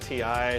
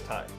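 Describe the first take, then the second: First: It is said as the two letters T and I. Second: It is said as one word rhyming with tie. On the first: The speaker always says it this way. "I've always said T I" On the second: Someone else says it this way. "He says Ty"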